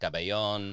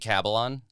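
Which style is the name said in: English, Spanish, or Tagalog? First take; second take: Spanish; English. First: The name is said Spanish-style, with a 'yon' ending. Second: The name is said English-style, rhyming with Babylon. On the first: "being conquered by the Spanish" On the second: "entirely phonetic, rhymes with Babylon"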